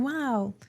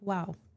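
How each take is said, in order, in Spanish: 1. Se dice con mucho entusiasmo. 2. Se dice de forma plana, sin entusiasmo. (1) "tiene que repetirlo así también" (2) "el estudiante lo repite como"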